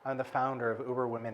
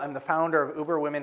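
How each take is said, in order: First: It is said in a warm, sultry, alluring way. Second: It is said plainly, with no allure or heat. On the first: It conveys sexuality. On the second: It conveys no sexuality.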